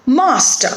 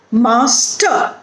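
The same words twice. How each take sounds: First: "Master" joined up, MAS stressed, falling; stress on first syllable. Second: "Master" split as MAS, pause, TER; syllable by syllable. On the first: Teacher showing the stressed syllable, "Master" whole with MAS stressed. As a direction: say "Master" as one word, leaning on MAS. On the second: Teacher breaking down an example, "Master" in two separated syllables. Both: Shown as a demonstration. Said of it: "stress on the first syllable".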